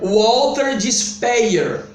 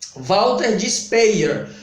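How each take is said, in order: First: The name is said with an English pronunciation. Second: The name is said with a Portuguese pronunciation. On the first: "pronunciando de forma correta, se isso for inglês"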